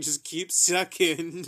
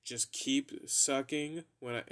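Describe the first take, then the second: First: Slow and laughing through it. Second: Said in the usual way. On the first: Retold or imitated. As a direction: giggle the words out slowly. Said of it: "she started laughing exactly like that too". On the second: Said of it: "started laughing exactly like that".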